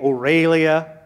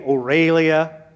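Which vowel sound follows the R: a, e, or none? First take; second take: e; e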